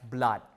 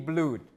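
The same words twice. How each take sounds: First: The vowel is a short schwa-like uh. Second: The vowel is a long oo sound. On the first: This is how the word is said today. "nowadays we pronounce it as blood" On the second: This is the form expected from the earlier sound change. "It should be blood"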